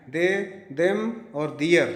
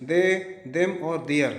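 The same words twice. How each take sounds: The two takes are said the same way.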